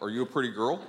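It is said in a low, deep voice.

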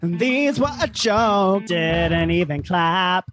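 It is said like a pop star.

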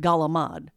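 It is said with a Southern Italian dialect accent.

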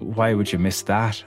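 The stress is on "that".

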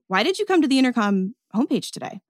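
It is said in a curious, judgmental tone. The asker seems to be judging the answer. The speaker calls it wrong. "It's a little bit curious, but it's kind of judgmental"

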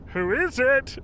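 It is said in an odd, put-on voice. "he kind of did in a weird voice"

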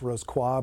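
It is said with a French-style pronunciation. "more properly pronounced"

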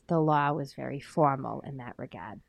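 It is said with a Boston accent. "But you say it with a Boston accent"

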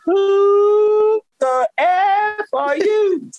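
It is said slowly, drawn out.

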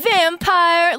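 It is said in an American accent.

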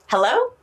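It is said in a happy tone.

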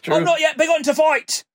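It is spoken in an English accent. The speaker calls it right.

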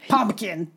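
It is said with a Hawaiian Pidgin accent. "Your Hawaii pigeon is like. ... What am I saying?"

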